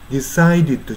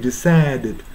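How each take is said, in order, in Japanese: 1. 真ん中の母音は二重母音のように滑らかに動きます。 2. 真ん中の母音は単一の純粋な母音です。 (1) "decided じゃなくて" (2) "decided に近く発音してるでしょ。これはさっきも言ったように二重母音を一重母音化させてる"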